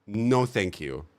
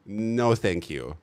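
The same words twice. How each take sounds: The two takes are said the same way.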